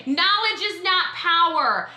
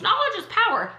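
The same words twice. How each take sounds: First: "Knowledge is not power." slow and deliberate, landing on "not"; measured slow rebuttal of "Knowledge is power."; firm correction. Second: "Knowledge is power." lifted and sing-song, mocking the cliché; higher mocking take of "Knowledge is power."; air-quote mockery. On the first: Shown as a demonstration. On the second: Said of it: "with their little air quotes".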